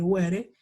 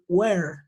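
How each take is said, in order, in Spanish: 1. Se pronuncia una vocal extra después de la R. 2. La palabra termina en el sonido de la R. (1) "Yo no puedo decir were" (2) "hasta la R, normalito"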